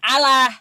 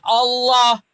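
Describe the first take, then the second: First: It is pronounced differently from the Arabic way. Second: It is pronounced the way Arabic speakers say it. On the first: The speaker calls it wrong. "bukan Allah" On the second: The speaker calls it right.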